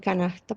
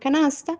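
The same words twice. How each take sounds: First: The s is weakened to a breathy h. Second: The s is pronounced as a full hiss. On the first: "aspiración de S como en canasta" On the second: "por canasta"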